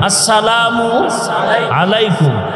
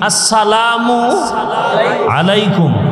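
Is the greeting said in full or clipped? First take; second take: full; full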